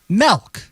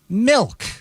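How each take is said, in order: First: The vowel sounds like 'eh', as in 'melk'. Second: The vowel sounds like 'ih', as in 'milk'. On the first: The speaker calls it wrong. "his pronunciation of milk" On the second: The speaker calls it right. "instead of milk"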